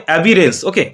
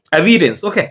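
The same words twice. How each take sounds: The two takes are said the same way.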